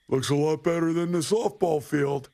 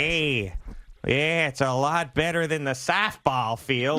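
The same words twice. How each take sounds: First: Raised, higher heckling call; heckling shout. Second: Put-on slow, drawn-out upstate New York accent. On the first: Retold or imitated. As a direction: call it out across the course. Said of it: "he's screaming at me". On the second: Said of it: "weird upstate New York, Midwest accent".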